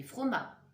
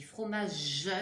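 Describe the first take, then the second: First: "froma" cut short, the last syllable missing, falling; clipped wrong word. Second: "fromage" said whole with the final "ge" sounded, rising; complete word. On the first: Teacher showing children the incomplete word "froma". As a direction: drop the end and say only "froma". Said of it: "J'ai pas dit froma". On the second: Teacher to children, giving the complete word "fromage". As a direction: finish "fromage" fully, landing on the last syllable. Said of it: "j'ai dit fromage". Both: Shown as a demonstration.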